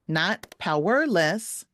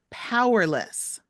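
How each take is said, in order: First: The stress is on the second syllable. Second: The stress is on the first syllable. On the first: The speaker calls it wrong. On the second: The speaker calls it right. "these words also will have the stress on the first syllable"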